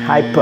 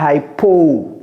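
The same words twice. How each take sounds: First: The O vowel is reduced, barely heard. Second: The O vowel is fully pronounced. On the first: The speaker calls it right. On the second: The speaker calls it wrong.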